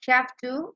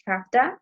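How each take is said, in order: First: Both words are said fully and separately. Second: The words blend into one reduced form. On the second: "we say haveta"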